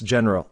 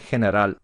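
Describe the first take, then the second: First: It is pronounced with English sounds. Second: It is pronounced with Spanish sounds. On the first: "Pronunciation is a little bit different" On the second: "Pronunciation is a little bit different"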